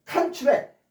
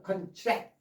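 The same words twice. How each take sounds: First: 컨트랙 with the front syllable punched; stress on first syllable. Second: 컨트랙 with the back syllable punched; stress on second syllable. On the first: Teacher contrasting the noun form, 컨트랙 stressed on the first syllable. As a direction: say 컨트랙 as CON-tract, strong start. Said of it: "앞에 강세 있어". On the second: Teacher demonstrating the verb form, 컨트랙 stressed on the second syllable. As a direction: say 컨트랙 as con-TRACT, weak start, strong end. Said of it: "강세 뒤에가 들어가면". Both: Shown as a demonstration.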